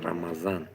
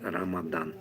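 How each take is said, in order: First: The middle consonant is a z sound. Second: The middle consonant is a d sound. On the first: This is how the speaker's own people say it. "bizda Ramazı z bilan" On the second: This is how people in the other region say it. "а bularda"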